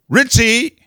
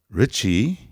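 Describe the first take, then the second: First: The name is called in a nagging, unhappy tone. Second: The name is called in a gentle, pleasant tone. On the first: The listener tunes out and stops hearing. The speaker calls it wrong. "instead of going" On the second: The listener might actually pay attention. The speaker calls it right. "if you went, Richie, I might listen"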